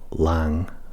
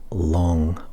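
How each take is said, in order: First: The vowel is open, as in 'lang'. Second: The vowel is rounded, as in 'long'. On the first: "That's long or lang" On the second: "I would say long"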